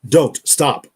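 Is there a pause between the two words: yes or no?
yes. There is a pause between the words.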